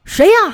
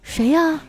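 First: It is asked as an angry shout. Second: It is asked at a normal volume.

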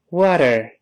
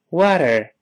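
The two takes are said the same way.

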